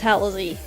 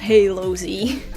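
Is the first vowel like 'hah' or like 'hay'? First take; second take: hah; hay. First: The first syllable sounds like 'hah', an open vowel. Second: The first syllable sounds like 'hay', as in halo. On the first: The speaker calls it right. "It's Halosy" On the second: The speaker calls it wrong. "the ha in Japan is not hey... it's not Halosy"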